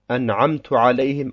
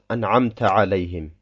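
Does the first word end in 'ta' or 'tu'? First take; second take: tu; ta. First: The first word ends with a 'tu' vowel. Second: The first word ends with a 'ta' vowel. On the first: The speaker calls it wrong. "Wie wenn man zum Beispiel sagt" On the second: The speaker calls it right.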